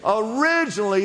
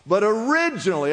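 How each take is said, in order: First: Originally, a clear call for echo; repeat after me. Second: Originally said with a lifted start; originally pronounced with care; stressed word. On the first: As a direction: give Originally as a word to copy. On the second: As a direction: lean into originally for the congregation. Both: Shown as a demonstration. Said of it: "everybody say the word originally".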